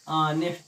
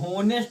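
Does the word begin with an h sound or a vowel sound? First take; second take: vowel sound; h sound. First: The word begins with a vowel sound. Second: The word begins with an h sound. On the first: The speaker calls it right. "ये लिखा है ऑनेस्ट" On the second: The speaker calls it wrong. "ये गलत पढ़ रहे थे"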